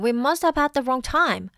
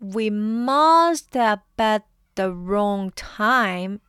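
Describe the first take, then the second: First: It is said fast. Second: It is said slowly.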